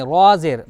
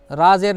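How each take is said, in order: First: रा said full and rounded, like 'raw'; heavy letter name. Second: रा said thin and light with an open aa; faulty light reading of रा ज़ेर; wrong letter name. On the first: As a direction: fatten the रा before ज़ेर. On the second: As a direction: say रा with a plain, unrounded aa. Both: Shown as a demonstration. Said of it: "रा ज़ेर नहीं".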